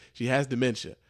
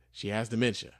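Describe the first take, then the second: No difference in how they are said.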